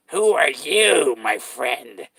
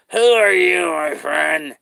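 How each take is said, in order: First: Slow, drawn-out clown greeting; creepy clown asking who you are. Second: Louder, higher clown repeat; creepy clown raising his voice. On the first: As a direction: stretch each word like a creepy clown. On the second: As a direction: push the same question harder as the clown. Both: Acted. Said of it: "I'm a clown".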